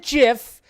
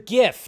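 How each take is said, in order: First: The word begins with a j sound. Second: The word begins with a hard g sound. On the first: The speaker calls it wrong. "not the GIF ... it's not fucking peanut butter" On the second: The speaker calls it right. "That's right, the GIF"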